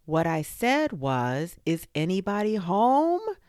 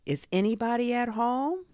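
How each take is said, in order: First: Louder, high, insistent holler rising at the end; very loud call. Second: High call rising to a long end. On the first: Bear calls again into a silent burrow, very loud. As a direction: repeat it loudly and emphatically. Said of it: "called out Pooh very loudly". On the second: Bear calls into a burrow, calling out. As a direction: call down into a hole. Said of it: "and called out". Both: A narrator's reading.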